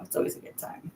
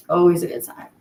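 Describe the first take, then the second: First: Whispered, much softer; under her breath. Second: Said in the usual way. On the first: Real, not acted. To her livestream viewers, whispered aside. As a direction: let it slip out as a whisper.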